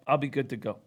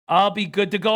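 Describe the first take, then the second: First: Said in the usual way. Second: Louder, emphatic. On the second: Shown as a demonstration. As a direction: punch it up, confident and louder. Repeats line, second take louder.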